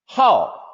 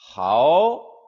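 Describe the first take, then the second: First: The pitch falls sharply from high. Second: The pitch rises from middle to high.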